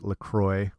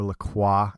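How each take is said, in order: First: The name is said in a non-Canadian way. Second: The name is said the Canadian way.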